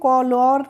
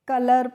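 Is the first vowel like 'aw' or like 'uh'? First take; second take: aw; uh. First: The first vowel is an open 'aw' sound. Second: The first vowel is a short 'uh' sound. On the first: The speaker calls it wrong. "इसको हम कॉलर नहीं पढ़ते हैं" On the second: The speaker calls it right. "कलर पढ़ते हैं"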